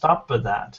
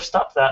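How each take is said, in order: First: An extra vowel is inserted between the words. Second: The words join with no extra vowel. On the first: The speaker calls it wrong. "I heard stop that" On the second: The speaker calls it right. "instead of stop that"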